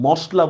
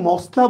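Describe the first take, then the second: First: মশলা with a hushing "sh"; actual pronunciation. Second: মশলা with a hissed "s", "mosla"; rejected pronunciation. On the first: Teacher gives the everyday form, মশলা as "moshla". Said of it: "মশলা বলি". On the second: Teacher asks if we say it so, মশলা as "mosla". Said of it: "মশলা বলি না". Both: Shown as a demonstration.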